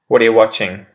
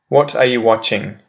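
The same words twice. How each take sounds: First: The words are run together and reduced, quickly. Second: Every word is said fully and separately. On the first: "I'll repeat the pronunciation shift one" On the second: "I say the proper English phrase"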